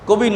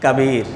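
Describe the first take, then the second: First: The first vowel is a short 'o' sound. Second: The first vowel is a long 'a' sound. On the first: The speaker calls it wrong. "কবির না" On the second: The speaker calls it right. "আসলে কাবির"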